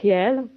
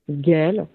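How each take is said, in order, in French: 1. Le nom se prononce à la flamande. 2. Le nom se prononce à la française. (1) "Ça se prononce réel en flamand. Je sais que je le prononce très mal" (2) "à la française, accent français, donc Gaël, en prononciation française"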